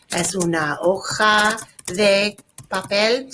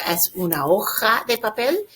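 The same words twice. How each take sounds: First: Slow, separated words for learners; slow model reading. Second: Said in the usual way. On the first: Shown as a demonstration. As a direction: draw out "hoja" and pause before "papel". Teacher repeats it slowly for students.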